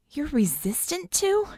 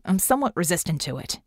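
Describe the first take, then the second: First: High, slow, rising disbelief; incredulous drawn-out question; astonished question. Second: Understated, matter-of-fact statement; grunted. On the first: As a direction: echo it back, stunned, ending upward. Astonished echo of his claim. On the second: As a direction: state it plainly with a falling end. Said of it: "Red grunted". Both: A narrator's reading.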